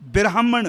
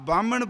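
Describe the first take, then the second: First: It begins with bira, an i sound between b and r. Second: It begins with ba and has no r sound. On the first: The speaker calls it right. "इत्थे बब्बे नूं सिहारी लगी है" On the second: The speaker calls it wrong. "ना बामण बोलना है"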